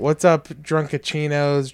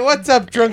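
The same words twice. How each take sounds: First: It is said with low energy. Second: It is said with high energy.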